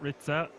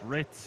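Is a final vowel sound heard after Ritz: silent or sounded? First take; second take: sounded; silent. First: The name ends with an extra vowel sound. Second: The name ends on the z sound. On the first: The speaker calls it wrong. "not Ritza" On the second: The speaker calls it right. "it seems like it's just Ritz"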